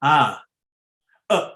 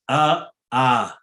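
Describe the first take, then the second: First: "A, a" held open for two beats; long a. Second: "a, a" cut off short and clipped at one beat. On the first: Teacher demonstrating the long Sanskrit vowel after the short one. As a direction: draw out each "A" longer. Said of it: "It becomes two, actually". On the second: Teacher demonstrating the short Sanskrit vowel to the class. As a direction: snap each "a" off quickly. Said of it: "What is a short vowel?". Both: Shown as a demonstration.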